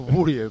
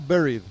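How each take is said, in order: First: It is pronounced with Spanish sounds. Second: It is pronounced with English sounds. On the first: "en español lo digo a la aragonesa y digo Buried" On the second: "Cuando hablo en inglés digo Buried"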